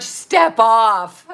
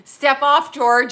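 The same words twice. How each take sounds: First: A lightly voiced sitcom character, loud, with "Step" punched; Seinfeld impression. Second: A loud mock "Step off" with a grin; quoting Seinfeld. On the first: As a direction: toss off the catchphrase in a loud put-on voice. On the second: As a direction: bark the line like a sitcom rebuke.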